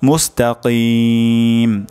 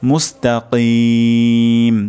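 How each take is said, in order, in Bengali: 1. "k" ধ্বনিটি আরও সামনে থেকে উচ্চারিত হয়। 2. "k" ধ্বনিটি গলার গভীর থেকে উচ্চারিত হয়। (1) "যদি এমন হয় মুস্তাকিম তাহলে কিন্তু অশুদ্ধ হবে" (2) "এখানে কফ উচ্চারণ উচ্চারণ করতে হবে"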